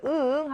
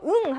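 First: 응 stretched in two parts as a no; disagreeing, two-beat 응; negative 응. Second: 응 as a simple yes; agreeing grunt of 응; affirmative 응. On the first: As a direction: hum 응 as uh-uh. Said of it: "응 하면 노가 되는 거야". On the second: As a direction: say 응 in one agreeing tone. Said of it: "응 하면 예스". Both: Shown as a demonstration.

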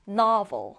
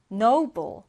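First: Novel with an open "nah" and a V; NA and V sounds. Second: Noble with a long O and a B; O and B sounds. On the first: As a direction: say "novel" as NAH-vul, with a clear V. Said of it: "나 그리고 V 발음". (novel을 '나'와 V 소리로 또박또박) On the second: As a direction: say "noble" as NOH-bul, with a clear B. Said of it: "O 발음 그리고 B 발음 해주시면 됩니다". (noble을 '오'와 B 소리로 또박또박) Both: Shown as a demonstration.

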